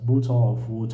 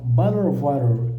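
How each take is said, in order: First: It is said in a British accent. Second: It is said in an American accent.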